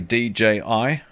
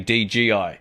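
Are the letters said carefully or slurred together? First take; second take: carefully; slurred. First: The letters are said slowly and distinctly. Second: The letters are said fast and run together. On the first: The speaker calls it right. "I always have to slow myself down when I say D J I" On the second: The speaker calls it wrong. "Otherwise, I say D G I, like everyone else does"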